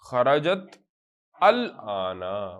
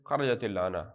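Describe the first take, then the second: First: The first word ends separately, without a linking vowel. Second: The first word links on with an added i.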